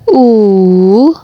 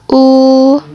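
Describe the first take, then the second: First: The vowel carries the third tone. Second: The vowel carries the first tone. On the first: "nada ketiga" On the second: "Nada pertama"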